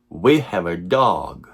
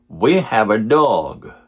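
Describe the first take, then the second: No difference in how they are said.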